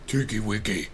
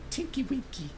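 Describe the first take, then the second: First: The character voice is noticeably lower. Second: The character voice is higher and soft. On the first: "He has the lower voice" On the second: "That's not what he sounds like"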